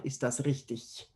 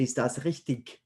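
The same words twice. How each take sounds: First: "richtig" ending in a soft ch as in "ich"; standard German ending. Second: "richtig" ending in a hard g or k sound; native-speaker variant. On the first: Teacher showing the class standard German, soft -ich ending. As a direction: finish "richtig" softly like the word "ich". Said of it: "this is pronounced as ich". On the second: Teacher showing learners how natives on German television say it, hard-ending variant. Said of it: "a lot of native speakers of German would say". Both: Shown as a demonstration.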